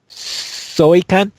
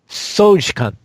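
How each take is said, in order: First: The middle consonant sounds like a Y. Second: The middle consonant sounds like a J.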